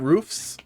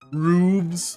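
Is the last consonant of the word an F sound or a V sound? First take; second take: F sound; V sound. First: The word ends with an f sound. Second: The word ends with a v sound. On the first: "not roofs" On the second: "with a V"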